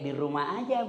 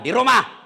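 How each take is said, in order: First: It is said softly with a lilting, drawn-out tune. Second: It is said firmly and curtly, without lilt.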